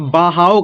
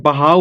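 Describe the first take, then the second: First: बहाव misread as 'baa-haav'; mistaken long vowel. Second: बहाव as 'ba-haav', short first vowel; correct short vowel. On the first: Teacher warning pupils of their likely slip, long-vowel misreading. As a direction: lengthen the first vowel of बहाव into 'baa'. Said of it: "आप बहाव कर दोगे". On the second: Teacher correcting the pupils' slip, short-vowel pronunciation. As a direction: keep the opening of बहाव brief, then long 'haav'. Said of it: "but बहाव होता है ना". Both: Shown as a demonstration.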